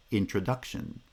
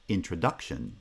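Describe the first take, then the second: First: Introduction with stress on the third syllable and lighter stress on the first; stress pattern demo. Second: Said in the usual way. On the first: Shown as a demonstration. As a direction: say introduction as in-tro-DUC-tion, secondary stress on in. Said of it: "The second foot is the strong foot".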